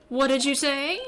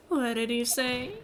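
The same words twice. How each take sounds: First: Emphatic, louder rising question; pouncing question. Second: Slow, rising question; taken aback. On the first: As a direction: pounce on the witness's slip. Lawyer pounces on slip, second take. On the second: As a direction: let the slip sink in slowly. Lawyer reacts to a slip, first take. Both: Acted.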